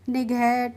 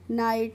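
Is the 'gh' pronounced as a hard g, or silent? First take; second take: hard g; silent. First: The word has a short i and a hard g. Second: The word has a long 'ai' and no g. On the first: The speaker calls it wrong. "इस तरीके से नहीं करेंगे" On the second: The speaker calls it right. "इस तरीके से करेंगे"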